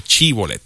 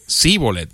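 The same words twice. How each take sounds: First: Sh sound opening shibboleth; correct shibboleth. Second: Síbolet begun with plain s; s replacing sh in shibboleth; mispronounced shibboleth. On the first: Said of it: "con S". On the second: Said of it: "sino decían sí". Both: Shown as a demonstration.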